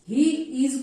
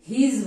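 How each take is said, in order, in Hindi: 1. यह दो अलग शब्दों में बोला जाता है। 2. यह एक संक्षिप्त शब्दांश में बोला जाता है।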